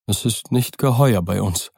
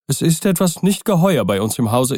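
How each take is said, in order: First: Dull. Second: "Es ist etwas nicht geheuer" said higher and anxious; a scared butler blurts out "nicht geheuer"; frightened old servant. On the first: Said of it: "sagte er dumpf". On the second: Poole's frightened take. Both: Acted.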